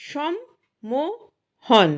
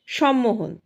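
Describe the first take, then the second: First: "সম্মোহন" very slow, in three parts সম-মো-হন; syllable by syllable. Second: Said in the usual way. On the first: Shown as a demonstration. Teacher breaking up the written word, syllable by syllable. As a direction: pause after each beat of "সম্মোহন".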